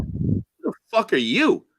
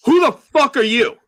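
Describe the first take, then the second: First: Higher rising question, YOU lifted at the end; retorted question. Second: Loud, high confrontational bark; drunkenly aggressive. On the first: Newcomer answering the drunk man back, questioning retort. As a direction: throw it back at him, not shouted, rising on YOU. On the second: Drunk man confronting a newcomer at the bar door, loud and aggressive. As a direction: imitate a belligerent drunk challenging a stranger. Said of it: "he drunkily and aggressively walks over to me". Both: Retold or imitated.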